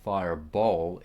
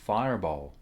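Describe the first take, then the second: First: The stress is on the second syllable. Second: The stress is on the first syllable. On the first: The speaker calls it wrong. "so it's not fireball" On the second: The speaker calls it right. "fireball is stressed on the first syllable"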